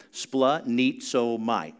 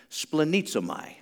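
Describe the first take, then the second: First: "Splenizomai" drawn out slowly, syllable by syllable. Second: Said in the usual way. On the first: Shown as a demonstration. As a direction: spell out "Splenizomai" slowly so they can follow. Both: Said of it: "Everybody say it with me".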